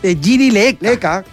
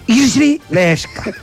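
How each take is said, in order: First: The surname is said without an s sound. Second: The surname is said with an s sound. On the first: The name is read the way it is written. The speaker calls it wrong. "nosotros le decíamos Giri Leka" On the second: The name is said the way its owner says it. The speaker calls it right. "Pero es Giri Leska"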